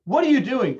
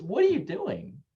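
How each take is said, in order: First: Loud accusing What are you doing, louder; harsh demand. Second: Lighter curious take. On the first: Parent confronting a misbehaving child, loud and accusing. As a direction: bark it like an angry parent. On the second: Parent gently curious with a screaming child. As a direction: ask it gently, amused. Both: Shown as a demonstration. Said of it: "the way you say it can change".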